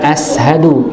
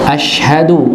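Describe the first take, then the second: First: The word has an 's' sound after the a. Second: The word has an 'sh' sound after the a. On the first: The speaker calls it wrong. "baca ashadu dengan sin, bukan shin" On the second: The speaker calls it right. "harus dengan shin bukan sin"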